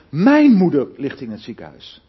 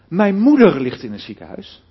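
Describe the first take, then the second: First: The stress is on the word mijn. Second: The stress is on the word moeder. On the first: It is this person's mother, not someone else's. "Begin maar eens even de klemtoon te leggen op mijn" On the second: It is the mother, not the father. "Dan bedoel ik te zeggen, ja, niet mijn vader"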